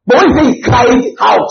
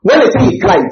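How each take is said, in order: First: "cried out" driven home with force; stress on CRIED OUT. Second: Said in the usual way. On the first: Shown as a demonstration. Pastor contrasting two verbs for the congregation, "cried out" stressed hard. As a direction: hit "cried out" as something far stronger. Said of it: "that's a serious shouting". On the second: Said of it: "it's one".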